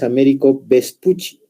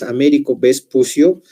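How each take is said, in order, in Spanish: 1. El apellido termina en sonido 'chee'. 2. El apellido se lee como está escrito. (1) "generalmente su pronunciación es" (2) "si bien ustedes leen su nombre"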